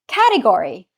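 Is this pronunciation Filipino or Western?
Western. It is said with a Western pronunciation. "You say"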